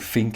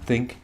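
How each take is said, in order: First: It begins with an f sound. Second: It begins with a th sound. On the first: "the voice that I grew up saying when it's like uh, I say think instead of think" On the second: "instead of think"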